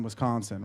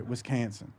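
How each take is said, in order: First: Said in the usual way. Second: "Wisconsin" said as wis-CAN-sin, to rhyme with mansion; mispronounced to rhyme. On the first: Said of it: "Sorry, Wisconsin". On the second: Shown as a demonstration. Comic correcting himself to the rapper's rhyme, "Wisconsin" as wis-CAN-sin. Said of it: "rhyme the word mansion with Wisconsin".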